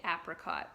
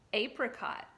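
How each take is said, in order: First: "apricot" with the first vowel of apple; short-A apricot. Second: "Apricot" starting with the letter name A; long-A apricot. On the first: Teacher shows how some people say it, "apricot" said AP-ri-cot. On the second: Teacher repeats the word with the children, "Apricot" said AY-pri-cot. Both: Shown as a demonstration. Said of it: "Some people say apricot".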